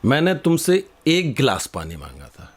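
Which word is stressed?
एक. The word एक carries the strongest stress. I asked for one glass, not several. "तुम ये पांच गिलास क्यों लेकर के आ गए?"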